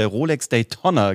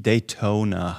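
First: "Daytona" with a short o, as day-TONN-a; short open o in "Daytona"; mistaken pronunciation. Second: "Daytona" drawn out with a long o; long closed o in "Daytona", slow and low; correct pronunciation. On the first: Retold or imitated. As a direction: say "Daytona" to rhyme with Tonna. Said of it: "habe ich über eine". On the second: Shown as a demonstration. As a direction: say "Daytona" slowly, day-TOH-na. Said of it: "die Daytona heißt".

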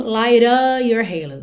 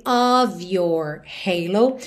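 First: "light of your halo" linked fast, "of" as a with no V; V dropped. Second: "Of your halo" very slow, "Of" ending in V; slowly, "Of" as ov. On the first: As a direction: run "light of your" together, no V. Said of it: "ele fica mesmo light of your halo". ("of" sem o V, tudo ligado) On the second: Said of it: "ele sempre tem som de O V". ("Of" com V bem lento) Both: Shown as a demonstration.

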